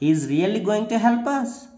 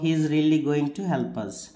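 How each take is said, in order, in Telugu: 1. ఇది సందేహాన్ని సూచించే పడి-లేచే స్వరంతో చెప్పబడుతుంది. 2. ఇది సాధారణ సానుకూల వాక్యంలా చదవబడుతుంది. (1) "ఆ డౌట్ మనం ఎలా చెప్పొచ్చు" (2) "యూజువల్గా మనం ఎలా చదువుతాం"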